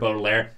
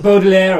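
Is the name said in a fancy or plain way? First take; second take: plain; fancy. First: The name is said in a plain, ordinary way. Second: The name is said in a fancy, posh way. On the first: This is how a child reading the book would say it. "you probably say the name just like Baudelaire" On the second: This is how the characters in the TV show say it. "everybody pronouncing it in a very fancy tone"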